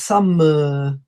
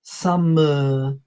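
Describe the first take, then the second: Both takes have the same delivery.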